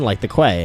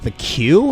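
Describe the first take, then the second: First: The word is said as 'kway'. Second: The word is said as 'kyoo'. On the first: Someone else said it. "pronounced it Quay" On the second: The speaker's own usual pronunciation. "that's how every normal human being pronounces that word"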